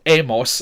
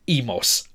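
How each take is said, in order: First: Emos said "EH-mos"; an open e starting emos; present-tense E. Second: Imos said "EE-mos"; a long ee starting imos; I in place of E. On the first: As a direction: begin emos with "eh". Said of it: "it's not emos as it is in the present". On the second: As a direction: begin imos with "ee". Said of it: "it's imos". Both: Shown as a demonstration.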